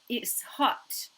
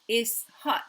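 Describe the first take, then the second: First: The first word has a t sound. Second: The first word has no t sound. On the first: The speaker calls it right. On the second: The speaker calls it wrong.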